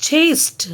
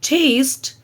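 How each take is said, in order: No difference in how they are said.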